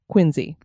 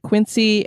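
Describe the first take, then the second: First: The name is said the way residents say it. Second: The name is said the general, non-local way. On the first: "residents of Quincy actually pronounce it as Quincy" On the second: "I just said Quincy"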